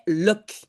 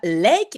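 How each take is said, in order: First: The suffix has a short, reduced vowel. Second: The suffix has a full, diphthong-like vowel. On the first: The speaker calls it right. "mais lock" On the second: The speaker calls it wrong. "on ne prononce pas lake"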